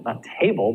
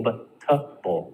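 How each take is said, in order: First: "table" with a full tay sound. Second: Slow "table" as a weak təbəl; schwa təbəl. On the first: Teacher shows the wrong full "table" in vegetable. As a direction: say table fully, TAY-bəl. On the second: Teacher shows the right reduced "table" in vegetable. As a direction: reduce tay to tə, slowly. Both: Shown as a demonstration.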